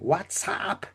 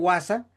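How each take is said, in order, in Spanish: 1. La palabra se pronuncia con sonidos ingleses. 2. La palabra se pronuncia con sonidos españoles. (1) "el que habla inglés dice, no, no se dice así, se dice WhatsApp" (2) "yo digo WhatsApp en español"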